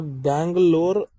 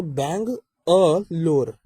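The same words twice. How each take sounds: First: "Bangalore" said slowly as one joined word, the city name. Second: "bang अ लोर" slowed, with clear gaps between "bang", "अ" and "लोर"; split into three. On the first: Teacher showing the joined word Bangalore. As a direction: run "Bangalore" together smoothly. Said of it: "जोड़ के एक meaning बन रहा है". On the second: Teacher contrasting the split word with Bangalore. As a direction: pull the word apart into three deliberate beats. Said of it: "ये तीन word बनेंगे". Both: Shown as a demonstration.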